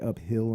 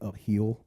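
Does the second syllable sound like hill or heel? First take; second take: hill; heel. First: It is said the common way, hill. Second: It is said in his local accent, heel.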